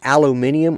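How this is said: The word is said the non-American way. "Aluminium for the, anybody but uh, the U S"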